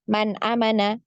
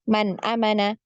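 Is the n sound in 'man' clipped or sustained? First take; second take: clipped; clipped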